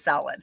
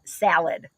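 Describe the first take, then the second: First: "salad" said like "sah-lad"; Brian's broad-A pronunciation. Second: "salad" with the A of "cat"; flat-A pronunciation. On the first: Retold or imitated. Daughter quotes Brian's way, "salad" with a broad "ah". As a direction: open back "ah" in "salad". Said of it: "Brian says salad or Dallas". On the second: Shown as a demonstration. Daughter shows mom her local way, "salad" with a flat A. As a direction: say "salad" with a short front A. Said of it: "Like you say salad".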